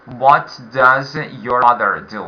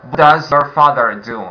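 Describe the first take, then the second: First: "What" stressed, slowed down; slower model. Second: Said in the usual way. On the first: Shown as a demonstration. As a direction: repeat it slowly for the class. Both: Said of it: "exercise five again".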